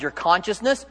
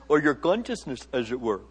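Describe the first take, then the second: First: Said in the usual way. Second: Badly faked Indian accent, low and soft. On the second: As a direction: toss it off softly in a poor Indian accent. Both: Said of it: "Very bad Indian accent".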